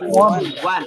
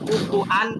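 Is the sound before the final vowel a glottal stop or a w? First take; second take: w; glottal stop. First: A rounded w sound comes before the final vowel. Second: A glottal stop comes before the final vowel. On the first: The speaker calls it right. "উচ্চারণটা হবে কি কুফুওয়ান।" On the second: The speaker calls it wrong. "কুফুআন উচ্চারণটা হয় না।"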